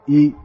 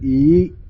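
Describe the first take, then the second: First: The pitch is held low throughout. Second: The pitch starts low and rises high. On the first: "E is low" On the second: "is low going to high"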